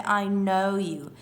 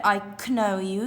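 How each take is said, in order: First: "know" said like "no"; slow "know" beginning on a clean n; silent K. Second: "know" said as k-no; wrongly voiced k at the start of "know"; K sounded. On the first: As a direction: drop the k in "know", unhurried. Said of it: "you say". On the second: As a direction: pronounce a hard k before the n in "know". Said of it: "You don't say". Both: Shown as a demonstration.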